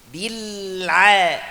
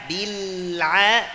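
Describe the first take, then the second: First: A throaty ain sound follows the l. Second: The same.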